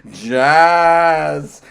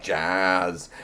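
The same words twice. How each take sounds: First: A loud, teasing sing-song call of jazz; taunting call. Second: Said in the usual way. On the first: Pretend. Taunting someone who dislikes jazz with a loud teasing call. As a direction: taunt them with the word.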